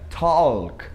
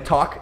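First: The word is said with an L sound. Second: The word is said without an L sound. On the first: The speaker calls it wrong. "ficaria talk e walk. Isso ficaria um negócio muito bizarro" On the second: The speaker calls it right. "Então eles não pronunciam, é talk e walk"

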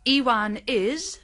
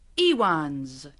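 First: The verb is said in full as a separate word. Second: The verb is contracted onto the name. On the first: The speaker calls it wrong. "kita tidak mengatakan" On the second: The speaker calls it right.

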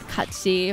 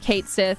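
First: The first syllable sounds like 'cat'. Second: The first syllable sounds like 'Kate'. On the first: This is the Gaelic pronunciation. "and not Katsi or whatever it is said as" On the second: This is the pronunciation used in the English dub. "his name will be pronounced Kate Sith"

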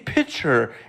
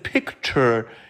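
First: The word is said without its 'k' sound. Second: The word is said with its 'k' sound. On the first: "if I say picture instead of" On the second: "instead of picture"

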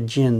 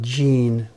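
First: The vowel is short, like in 'gin'. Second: The vowel is long, like in 'gene'. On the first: The speaker calls it right. "It's closer to jin, the drink" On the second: The speaker calls it wrong. "than jin, the DNA"

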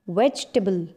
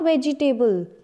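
First: The word is said with three syllables. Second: The word is said with four syllables. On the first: The speaker calls it right. "It's vegetable" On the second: The speaker calls it wrong. "No, it's not vegetable"

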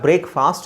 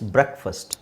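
First: The first vowel is long, like 'brake'. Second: The first vowel is short, like 'brek'. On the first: The speaker calls it wrong. "ಬ್ರೇಕ್ಫಾಸ್ಟ್ ಅಲ್ಲ" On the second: The speaker calls it right. "It's ಬ್ರೇಕ್ಫಾಸ್ಟ್"

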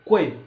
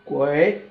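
First: The syllable is short with a sharply falling pitch. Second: The syllable has a low dipping pitch. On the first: It means expensive. "If the tune is 4 tone, during pronunciation we make it shorter" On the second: It means goose. "If it contains the 3rd tone"

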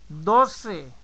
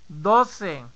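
The two takes are said the same way.

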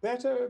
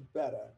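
First: The final R sound is pronounced. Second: The final R sound is dropped to a schwa. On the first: "better becomes better" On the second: "the suppressing of the R, okay? And it becomes a schwa"

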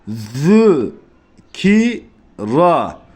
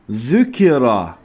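First: There is a pause between each syllable. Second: The syllables run together without any pause. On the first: The speaker calls it right. "Her harfin arasında bir duraksama muhakkak olması gerekiyor" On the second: The speaker calls it wrong. "Şu şekilde okumayı biz istemiyoruz arkadaşlar"

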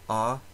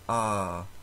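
First: The vowel is held only briefly. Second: The vowel is held about twice as long. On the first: "short A is A" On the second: "long A"

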